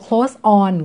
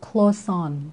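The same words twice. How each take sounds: First: The two words are said separately, without linking. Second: The two words are linked into one smooth unit. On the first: "ใครสะดวก" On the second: "ถ้าอยากลองแบบฝึกเชื่อมเสียงก็"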